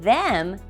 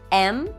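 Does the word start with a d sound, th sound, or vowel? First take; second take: th sound; vowel. First: The word starts with a th sound. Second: The word starts with a vowel sound.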